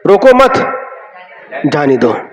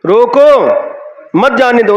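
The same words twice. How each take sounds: First: A pause follows the second word, मत. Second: A pause follows the first word, रोको. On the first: Don't stop them; let them go. "कहां पर अल्प विराम हुआ, कितना अर्थ बदल जाता है" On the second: Stop them; don't let them go. "उनको रोक लो, जाने मत दो"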